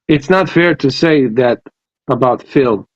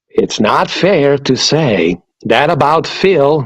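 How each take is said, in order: First: It is said in his normal voice. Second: It is said in a Joker impression.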